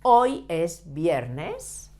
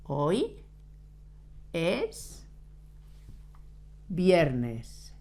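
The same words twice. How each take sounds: First: A slow, clear model sentence for the class. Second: "Hoy", "es" and "viernes" each said alone with long pauses between; word-by-word dictation. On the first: Teacher models the sentence slowly for her students. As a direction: read "Hoy es viernes" slowly as one smooth phrase. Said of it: "Today, hoy, is, es, Friday, viernes". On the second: Teacher dictates word by word so students can write. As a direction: dictate it one word at a time. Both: Shown as a demonstration.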